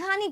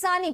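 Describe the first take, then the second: First: The word begins with an h sound. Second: The word begins with an s sound. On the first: "Kathiawadi હોય એ હાની કહેતું હોય" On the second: "સુરતી લોકો એ સાની કહેતું હોય"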